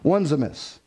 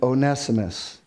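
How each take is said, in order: First: The first part sounds like the word ones. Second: The first part does not sound like ones. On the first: The speaker calls it wrong. "that's how I hear people say Onesimus, right? Because we recognize the word ones" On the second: The speaker calls it right. "The real, it's Philemon and Onesimus"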